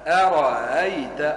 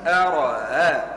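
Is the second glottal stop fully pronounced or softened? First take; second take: softened; softened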